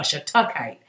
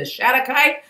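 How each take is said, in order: First: Shatukite pronounced shuh-TUCK-ite, second syllable stressed. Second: Shatukite pronounced SHAT-uh-kite, first syllable stressed. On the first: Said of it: "my money's on Shatukite". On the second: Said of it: "It's either Shatukite or Shatukite". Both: Shown as a demonstration.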